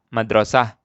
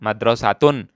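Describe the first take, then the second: First: The word ends with a soft h sound. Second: The word ends with a t and -un. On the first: The word stands alone at a stop. "kalau mati dibacanya dengan seperti ha" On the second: The word is joined to what follows. "Kalau disambung, kita sebut, kita baca taknya"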